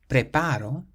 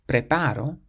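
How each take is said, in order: The two takes are said the same way.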